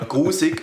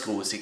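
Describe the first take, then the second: First: The word is said in common Swiss German. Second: The word is said in St. Gallen dialect. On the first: It sounds less disgusting. "In den meisten Orten in der Schweiz sagt man ja grusig" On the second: It sounds more disgusting. "grusig ist schon ein bisschen grusiger"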